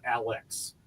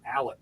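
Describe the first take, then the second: First: The word ends in a 'ks' sound. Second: The word ends in a plain 'k' sound. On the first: The speaker is not from there. The speaker calls it wrong. "not Alex" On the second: The speaker was born and raised there. The speaker calls it right. "you say I'm from Alec"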